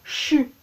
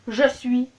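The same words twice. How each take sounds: First: It is said in a Quebec pronunciation. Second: It is said in a non-Quebec pronunciation. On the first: The speaker calls it right. "Au Québec, ok, c'est je suis" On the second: The speaker calls it wrong. "Non, non, non"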